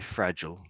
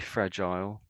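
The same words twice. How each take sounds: First: It is said in an American accent. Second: It is said in a British accent. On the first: "The Americans say fragile" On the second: "we say fragile"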